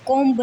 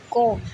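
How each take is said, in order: First: कॉम्ब with the b sounded at the end; wrong pronunciation with b. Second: Said in the usual way. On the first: Shown as a demonstration. Teacher showing pupils the wrong way to read कॉम्ब. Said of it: "कॉम्ब नहीं". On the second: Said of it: "कॉम्ब नहीं, कॉम".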